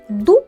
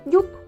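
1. Перший приголосний твердий. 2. Перший приголосний м'який. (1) "замість «дуб»" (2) "дитина ... каже «дюб»"

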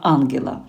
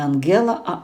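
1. Наголос на першому складі. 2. Наголос на другому складі. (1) "а Ангела ... наголос, звичайно, на А" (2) "чому я кажу не Ангела"

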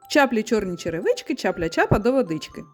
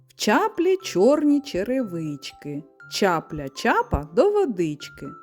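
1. Фраза вимовляється швидшим темпом. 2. Фраза вимовляється повільнішим, звичайним темпом.

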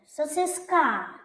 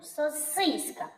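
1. Наголос на останньому складі. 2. Наголос на другому складі. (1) "тоді останній звук «а» буде головним" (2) "голосний «і». Спробуй стати головним"

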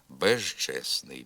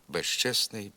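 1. Приголосний перед «ч» — дзвінкий звук «ж». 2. Приголосний перед «ч» — глухий звук «ш». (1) "зберігає свою дзвінкість і уподібнюється звукові «ж»" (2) "При швидкому темпі мовлення ... оглушується і уподібнюється звукові «ш»"

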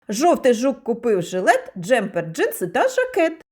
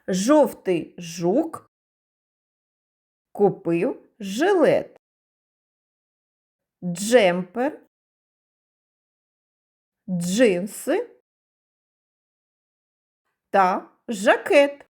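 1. Промовляють швидшим темпом. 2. Промовляють помірним, звичайним темпом.

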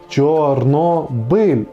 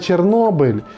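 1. Назву вимовляють з українською вимовою. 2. Назву вимовляють з російською вимовою. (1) "Чорнобиль, а не" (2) "а не Чорнобиль"

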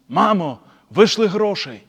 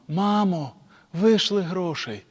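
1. Сказано грубим, вимогливим тоном. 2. Сказано схвильованим, благальним тоном. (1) "яке нагле воно" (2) "може він якусь біду попав"

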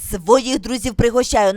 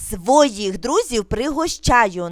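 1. Вимовляється дуже швидко. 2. Вимовляється дещо швидше. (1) "дуже швидко" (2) "трошки швидше"

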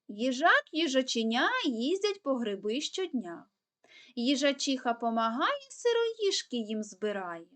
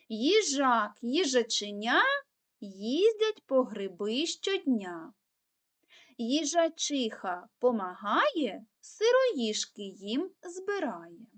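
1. Її вимовляють ще швидшим темпом. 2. Її вимовляють досить швидким темпом. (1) "тепер ще швидше" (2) "пробуємо повторювати скоромовочку швидше"

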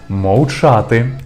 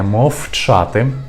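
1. Звук «в» звучить як короткий ковзний w. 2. Звук «в» звучить як глухий f. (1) "вимовляємо її як «в»" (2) "не"

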